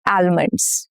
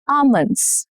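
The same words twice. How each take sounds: First: The l sound is pronounced. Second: The l sound is silent. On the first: The speaker calls it wrong. "Not almonds" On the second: The speaker calls it right. "Silent L shows up in many words like almond"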